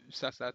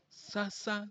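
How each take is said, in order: First: The word is said without the high tone. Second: The word is said with a high tone. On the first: Something that is meant to be sold. "Sasa tout simplement" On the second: Formerly, or in the meantime. "quand on met l'accent Sasa"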